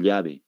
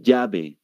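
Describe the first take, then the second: First: "llave" with a palatal LY sound; "llave" starting with a clear LY; Bolivian LL. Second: "llave" said as "yabe"; Peruvian Y. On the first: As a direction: say "llave" as "lyabe". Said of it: "No dicen". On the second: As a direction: start "llave" with a Y sound. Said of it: "Ellos dicen". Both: Shown as a demonstration.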